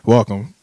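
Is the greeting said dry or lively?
dry. It is said in a dry, flat way.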